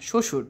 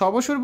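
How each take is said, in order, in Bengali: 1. প্রথম ব্যঞ্জনের পরে কোনো 'b' ধ্বনি শোনা যায় না। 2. প্রথম ব্যঞ্জনের পরে একটি 'b' ধ্বনি শোনা যায়।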